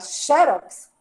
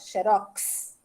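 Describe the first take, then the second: First: The stress falls on the first syllable. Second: The stress falls on the last syllable. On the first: It is written with an accent mark. "Mas se eu quiser falar xerox, também está correto, eu boto o acento" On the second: It is written without an accent mark. "O X já se encarrega de fazer com que a palavra seja oxítona"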